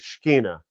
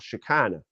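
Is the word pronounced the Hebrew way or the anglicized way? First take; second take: Hebrew; anglicized. First: It is pronounced in the Hebrew way. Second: It is pronounced in an anglicized way. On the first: This is the original Hebrew form of the word. "the Hebrew word would be" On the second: This is how some Christians say the word.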